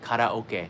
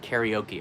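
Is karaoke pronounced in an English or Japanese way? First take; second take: Japanese; English. First: It is pronounced the Japanese way. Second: It is pronounced the English way. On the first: The speaker calls it right. "which this is what we say in Japan" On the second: The speaker calls it wrong. "not karaoke"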